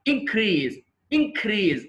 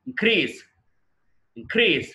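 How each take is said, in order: First: increase with first syllable punched high, then falling; noun stress. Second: increase with a light IN and a strong CREASE; verb stress. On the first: Teacher shows the class increase as a noun, first-syllable stress. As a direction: stress the opening IN of increase, drawn out. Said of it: "noun". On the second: Teacher shows the class increase as a verb, second-syllable stress. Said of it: "అప్పుడు verb". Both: Shown as a demonstration.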